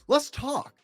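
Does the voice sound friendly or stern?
friendly. It is said in a light, friendly tone. The other person wants to share something. "she wants to share something with you"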